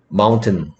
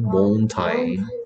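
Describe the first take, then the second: First: It is said naturally, like 'moun-tin'. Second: It is said letter by letter, like 'mon-tain'. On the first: It is the normal spoken form of the word. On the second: It is a spelling aid for memorizing the word.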